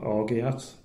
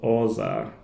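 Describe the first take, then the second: First: The word is said an anglicized way. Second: The word is said the French way. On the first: The speaker calls it wrong. "that's not the right way to go to say it" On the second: The speaker calls it right. "That's the um, proper pronunciation"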